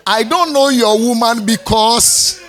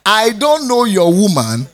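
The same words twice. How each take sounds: First: A slow, heavy retort with the stress on "don't". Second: A loud, firm repeat that hits "don't"; firm retort. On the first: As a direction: drag out "I don't know your woman". Husband's retort, slow and loud. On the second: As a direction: punch "don't" and say the whole line firmly. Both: Retold or imitated.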